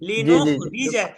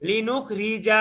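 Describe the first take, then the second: First: The final syllable is short and quick. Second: The final syllable is drawn out long. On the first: The speaker calls it right. "এখানে টানের কিচ্ছু নাই, তাড়াতাড়ি বলবেন" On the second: The speaker calls it wrong. "লিনুখ রিজা এরকম হয়ে গেছে ভাই"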